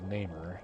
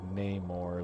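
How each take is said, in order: First: The last syllable has an 'er' vowel. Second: The last syllable has an 'or' vowel. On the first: The speaker calls it right. "if there was an E instead of an O in his name" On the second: The speaker calls it wrong. "instead of like like Namor ... it just doesn't sound right"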